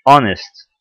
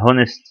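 First: "honest" with silent h, starting "on-"; نطق صحيح. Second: "honest" with the h sounded, as a question; نطق خاطئ. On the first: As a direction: say "honest" slowly as "ON-est", h dropped. (نطق "honest" من غير صوت الـ H) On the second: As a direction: offer the wrong "honest", a breath of h at the start: "HON-est?". (نطق "honest" غلط مع إظهار الـ H) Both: Shown as a demonstration. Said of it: "ما بنطقش ال H".

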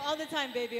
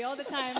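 First: Said in the usual way. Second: Laughing through the words. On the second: Real, not acted. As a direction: let a laugh break the line. Playful answer, laughing.

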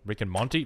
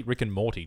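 First: Monty said with an N, asking; wrong name. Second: Morty said clearly with r and t; corrected name. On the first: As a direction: Rick and Monty with an n sound where Morty's r-t should be. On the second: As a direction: Rick and Morty, each sound right, falling. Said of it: "Jesus, I'm an idiot". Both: Shown as a demonstration.

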